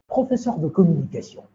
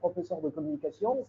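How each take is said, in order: First: It is said slowly in a calm, steady way. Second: It is said hurriedly, sounding out of breath. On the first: The speaker calls it right. "Je vais doucement. Je dois être posé" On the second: The speaker calls it wrong. "Je serai essoufflé"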